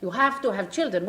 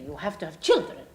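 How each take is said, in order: First: Put-on You have to HAVE children with the weight on have, falling after it; stress on have. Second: Put-on You have to have children with the weight on children, falling at the end; stress on children. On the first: Sheikh repeating his demand, stress on have. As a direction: punch the word have. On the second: Sheikh insisting to the pianist, stress on children. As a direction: lean hard on children. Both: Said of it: "He said, "This is ridiculous".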